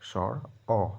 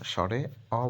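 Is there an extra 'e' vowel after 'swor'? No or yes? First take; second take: no; yes. First: The first word ends without an added vowel. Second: The first word ends with an added 'e' vowel. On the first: The speaker calls it right. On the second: The speaker calls it wrong.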